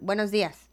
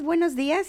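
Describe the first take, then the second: First: It is said in a cold, annoyed tone. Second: It is said in a cheerful, happy tone.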